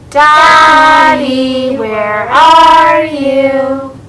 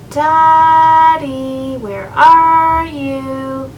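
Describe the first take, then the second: First: The call is said at a louder volume. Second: The call is said at a normal loudness.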